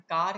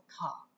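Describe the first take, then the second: First: An American-style R is pronounced at the end. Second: British-style, the R is dropped at the end.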